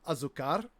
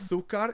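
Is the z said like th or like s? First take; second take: s; th. First: The z is said like s, non-Spain style. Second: The z is lispy like th, Spain style.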